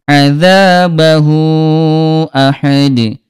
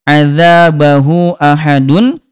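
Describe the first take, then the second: First: The last word ends without the -un ending. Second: The last word ends with the -un ending. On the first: "diganti dengan sukun atau mati" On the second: "huruf terakhir bertanda baca tanwin"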